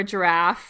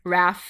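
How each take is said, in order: First: Said in the usual way. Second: "raff" with giraffe's first syllable dropped; child's pronunciation. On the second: Shown as a demonstration. Linguist showing how children shorten giraffe, first syllable missing from "raff". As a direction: say "raff", leaving off the gi-. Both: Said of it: "children might say things like".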